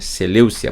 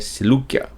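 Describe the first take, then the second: First: The name is said with an s sound. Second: The name is said with a k sound. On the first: This is the form used in Portuguese Bibles. The speaker calls it wrong. "na sua tradução está escrito Seleucia" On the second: This is how the name is really pronounced. The speaker calls it right. "saiba que é Seleukia"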